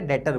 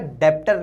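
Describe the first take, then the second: First: No b or p sound is heard mid-word. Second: A b or p sound is heard mid-word. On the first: The speaker calls it right. "डेटर बोलते हैं" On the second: The speaker calls it wrong. "डेप्टर नहीं बोलते"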